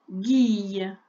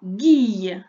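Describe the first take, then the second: First: Said in the usual way. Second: Guille dicté fort, plus bas; dictée appuyée. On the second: Shown as a demonstration. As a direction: dicter « guille » distinctement. (syllabe « guille » dictée fort) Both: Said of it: "tu m'écris".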